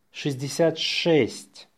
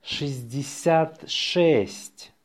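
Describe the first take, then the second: First: Natural-speed dictation; faster. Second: Slow dictation, words set apart. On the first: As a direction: run the number together briskly. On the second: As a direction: spell it out slowly by ear for learners. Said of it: "say it slowly". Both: Shown as a demonstration.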